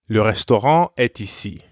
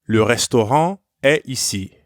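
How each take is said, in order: First: A T sound links est to ici. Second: The final T of est is silent.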